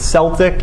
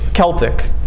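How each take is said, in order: First: The word begins with an S sound. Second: The word begins with a K sound. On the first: It sounds like the name of a basketball team. "Some people pronounce it Celtic" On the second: It avoids sounding like a basketball team's name. "We'll call it Celtic so that we don't think of the Boston basketball team"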